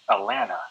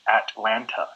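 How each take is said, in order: First: The T sounds are dropped. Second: The T sounds are clearly pronounced. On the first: The speaker grew up locally. "we pronounce it as Atlanta, where we don't say the the T's" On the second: This is the standard pronunciation. "in the correct pronunciation would be Atlanta"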